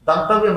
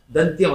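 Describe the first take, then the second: First: దంతవ్యం with an extra "vya" ending; mistaken pronunciation. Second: దంత్యం in two syllables ending "tyam"; correct pronunciation. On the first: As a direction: say దంతవ్యం with వ్యం after దంత. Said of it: "దంతవ్యం అనకూడదు". (దంతవ్యం అని వకారం చేర్చి పలకడం) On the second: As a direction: say దంత్యం with త and య joined. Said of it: "దంత్యం అనాలి దీన్ని". (దంత్యం అని వకారం లేకుండా పలకడం) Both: Shown as a demonstration.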